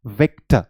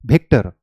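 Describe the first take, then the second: First: विक्टर with lower lip on upper teeth, clear v; विक्टर, a proper buzzing v; विक्टर said with a true English v; correct Victor with V. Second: विक्टर said with both lips, like Bictor; विक्टर with lips pressed, no v; wrong lips-together Victor. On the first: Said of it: "आपकी sound कितनी अच्छी आती है". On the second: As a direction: bilabial विक्टर with a b-like start. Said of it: "जब मैं विक्टर बोल रहा हूँ तो दोनों लिप्स टच कर रहा है". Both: Shown as a demonstration.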